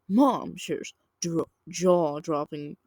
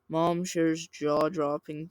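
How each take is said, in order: First: It is read with lively, varied pitch. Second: It is read in a flat, monotone voice. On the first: The speaker calls it wrong. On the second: The speaker calls it right.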